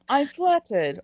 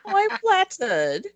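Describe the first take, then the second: First: It is said in the speaker's normal accent. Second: It is said in a put-on Welsh accent.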